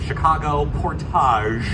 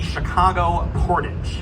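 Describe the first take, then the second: First: Portage is said with a French pronunciation. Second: Portage is said with an English pronunciation.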